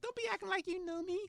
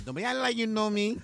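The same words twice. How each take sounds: First: Imitating a Spanish accent, high and sassy; playful Spanish-accented snap-back. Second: Put-on louder Spanish-accented sass; hammed-up Spanish accent, high. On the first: Imitating Serena brushing him off, Spanish accent. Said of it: "She's Spanish. She's got that little accent". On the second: Repeating Serena's retort, louder Spanish accent. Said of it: "She's got that little accent".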